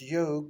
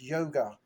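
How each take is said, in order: First: The word ends in a consonant sound. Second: The word ends with an added 'a' vowel. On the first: This is the original native form. The speaker calls it right. "the real world is" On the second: This is how the British said it. The speaker calls it wrong. "but they pronounce it as"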